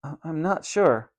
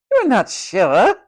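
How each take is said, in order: First: Put-on small, halting boy's answer; falter, then admit it quietly; hesitant. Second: Slow, loud, high echo with rising end; loud incredulous matron. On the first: Tom unsure where his parents live, hesitant stammer. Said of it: "The boy hesitated before answering". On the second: Matron humiliating Tom before the ward, loud incredulous echo. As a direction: repeat it loudly in scandalised disbelief. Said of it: "said the matron loudly". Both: A narrator's reading.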